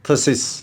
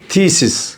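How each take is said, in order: First: The first vowel is a short schwa sound. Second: The first vowel is a long ee sound. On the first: It comes as a suffix at the end of a word. "एक suffix के तौर पे तो ये अक्सर बनेगा थसिस" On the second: It stands alone as a word. "जब ये अलग से लफ्ज़ है तो इसकी जो प्रोनंसिएशन है वो है थीसिस"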